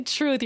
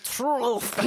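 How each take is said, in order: First: Said in the usual way. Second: Imitating a garbled French "Truth"; "Truth" mangled and drawn out in mock French; exaggerated, throaty French accent; mock choking French accent. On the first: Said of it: "What did you say". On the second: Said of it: "It sounded like you were joking".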